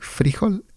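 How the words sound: Colombian: the stress is on the first syllable.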